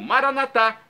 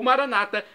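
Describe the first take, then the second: First: The stress falls on the final syllable. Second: The stress does not fall on the final syllable. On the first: "pronúncia católica com a tônica na última sílaba" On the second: This is the Protestant pronunciation. "pronúncia protestante dos nossos irmãos separados"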